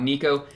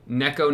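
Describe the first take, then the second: First: The first vowel sounds like 'ee'. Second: The first vowel sounds like 'eh'. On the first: The speaker calls it wrong. "corrupted my pronunciation" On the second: The speaker calls it right. "Neko, not Nico"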